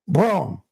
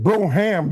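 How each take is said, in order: First: The name is said with one syllable. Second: The name is said with two syllables. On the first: The speaker calls it right. "you pronounce it Brom" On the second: The speaker calls it wrong. "You don't pronounce it Broham"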